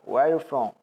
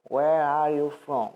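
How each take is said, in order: First: The words are said fast with sounds swallowed. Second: Each word is said slowly and fully separated. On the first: This is how native speakers actually say it. The speaker calls it right. "Eles falam tão rápido que a pronúncia correta que eles diriam seriam" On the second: This is how learners are usually taught to say it. The speaker calls it wrong. "eles não vão falar assim, né, a gente costuma aprender"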